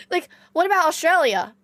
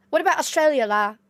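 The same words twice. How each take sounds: First: Said in the usual way. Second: Mock Singlish with la tag; Singaporean accent. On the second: Shown as a demonstration. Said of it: "talking like this, la".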